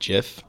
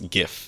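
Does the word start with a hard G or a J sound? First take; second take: J sound; hard G. First: The word starts with a soft J sound. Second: The word starts with a hard G sound. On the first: "It's like a giraffe" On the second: "It's a hard G"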